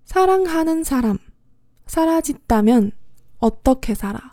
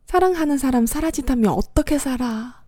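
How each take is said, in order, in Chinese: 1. 这句话说得慢。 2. 这句话说得快。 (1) "首先来慢慢的说一遍" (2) "然后再快一点完整的说一遍"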